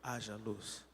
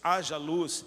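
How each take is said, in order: First: The phrase is said softly and weakly. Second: The phrase is said loudly and powerfully. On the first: This is not how the creator spoke. The speaker calls it wrong. "eu duvido que foi" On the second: This is how the creator really spoke. The speaker calls it right. "quando Deus disse"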